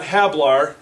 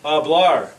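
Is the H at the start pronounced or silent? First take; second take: pronounced; silent. First: The word begins with an audible H sound. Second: The word begins directly with the vowel sound. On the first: The speaker calls it wrong. "not hablar" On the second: The speaker calls it right. "The H is silent"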